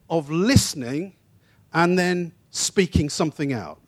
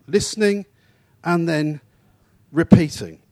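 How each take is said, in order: First: Said in the usual way. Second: Listening, pause, and then, pause, repeating; stressed, spaced words. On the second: Shown as a demonstration. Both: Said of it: "carries that notion".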